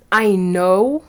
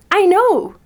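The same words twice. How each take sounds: First: Smug, self-satisfied "I know," with a flat, knowing finish; cocky. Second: "I know." thrown up high and loud with glee; delighted, not cocky. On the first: To an admirer who compliments her smell, a cocky "I know,". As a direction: say "I know," like you think you're better. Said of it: "cocky way". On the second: To an admirer praising her scent, a thrilled high "I know.". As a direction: squeal "I know." like you're thrilled to hear it. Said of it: "In a". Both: Retold or imitated.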